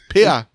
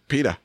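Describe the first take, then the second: First: The name is said with the T dropped. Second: The name is said with a clear T sound.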